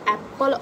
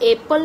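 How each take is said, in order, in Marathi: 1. पहिला स्वर 'cat' मधील छोटा 'a' सारखा वाजतो. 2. पहिला स्वर 'day' मधील 'ay' सारखा वाजतो. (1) "आपण ए फॉर ॲपल असं म्हणत आहोत" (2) "का आपण ए फॉर एपल नाही बोलत आहोत"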